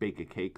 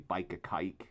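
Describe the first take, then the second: First: The vowels are said in a plain accent. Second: The vowels are said in a Cockney accent. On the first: "instead of saying" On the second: "they'll say ... especially if it's from Cockney"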